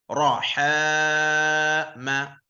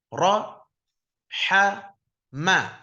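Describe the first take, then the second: First: The syllables run together without any pauses. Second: Each syllable is said separately with pauses between. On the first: "itu yang yang paling lancar seperti itu" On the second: "Tapi kita baiknya baca putus-putus"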